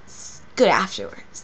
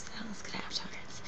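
First: Said in the usual way. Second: Breathy secret whisper of pleasure. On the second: Acted. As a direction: whisper it like a guilty delight. Repeats the line as a whisper.

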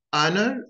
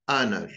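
First: "Honor" with a short British o and no r; British pronunciation. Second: "honor" with an American AH sound and an r; American pronunciation. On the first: Teacher contrasting the accents, British take. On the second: Teacher contrasting the accents, American take. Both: Shown as a demonstration. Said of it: "notice the differences between them".

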